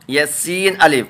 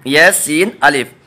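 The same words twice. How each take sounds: The two takes are said the same way.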